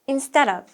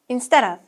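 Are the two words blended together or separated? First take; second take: blended; blended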